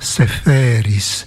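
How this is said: The name is said the Greek way, darker in colour. The speaker calls it right. "en grec, la teinte est plus sombre"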